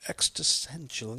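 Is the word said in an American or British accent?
British. The word is said in a British accent.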